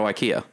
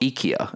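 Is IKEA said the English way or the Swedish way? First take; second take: English; Swedish. First: IKEA is said with an English pronunciation. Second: IKEA is said with a Swedish pronunciation. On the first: The speaker calls it wrong. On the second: The speaker calls it right.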